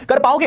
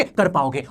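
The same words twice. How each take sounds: First: "कर पाओगे?" asked with a higher rising ending; teacher asking "कर पाओगे?" with a lifted question tune. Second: "कर पाओगे।" answered lower with a settled falling end; teacher answering "कर पाओगे।" low and certain; confident answer. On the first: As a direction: rise on "पाओगे" as a challenge to the class. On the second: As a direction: drop the pitch on "पाओगे" to reassure. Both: Shown as a demonstration.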